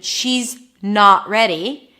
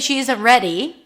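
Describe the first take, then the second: First: The stress falls on the word not. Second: The stress falls on the word ready. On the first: "it feels like I'm emphasizing the word not a bit more" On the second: "the emphasis is more on the ready"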